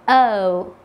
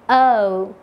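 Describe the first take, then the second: No difference in how they are said.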